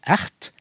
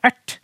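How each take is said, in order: First: "Ert" with separate r and t sounds; non-retroflex pronunciation. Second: "ert" with r and t merged into one retroflex t; retroflex pronunciation. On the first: Linguist shows the unmerged form, "Ert" with r and t apart. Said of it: "kan bli til ert". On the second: Linguist shows how others talk, "ert" with a retroflex t. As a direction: curl the t of "ert", no separate r. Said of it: "Den lyden som da blir laget". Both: Shown as a demonstration.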